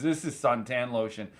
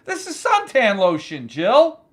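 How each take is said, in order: First: Lower, softer, amused realization; low aside. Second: Raised voice, name rising at the end; incredulous callout. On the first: Host opens the drink and sniggers, low and soft. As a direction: say it low, as if to yourself. First take, to himself. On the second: Host confronts his producer over the drink, loudly incredulous. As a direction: call it out to Jill in disbelief. Repeats it, calling to Jill. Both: Real, not acted.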